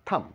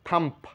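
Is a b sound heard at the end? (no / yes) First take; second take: no; yes. First: The word ends on the m sound. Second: A b sound is heard at the end. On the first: The speaker calls it right. "থাম্প না বলে বলবো থাম" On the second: The speaker calls it wrong. "আমরা থাম্প বলি"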